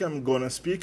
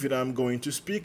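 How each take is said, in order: First: The phrase is squeezed into a short 'I'mma' form. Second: 'I am' is contracted; 'going to' stays full. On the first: "o going to acaba virando gonna... na primeira pessoa, na verdade ele vira mana"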